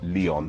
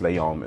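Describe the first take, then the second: First: The name is said with a non-French pronunciation. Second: The name is said with a French pronunciation. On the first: The speaker calls it wrong. "not Leon" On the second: The speaker calls it right. "it is actually pronounced Leon"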